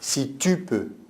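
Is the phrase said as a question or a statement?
statement. It is said as a statement, not a question. The listener's doubt is being taken up and rebuked. The speaker calls it right. "Il ne n'interroge pas"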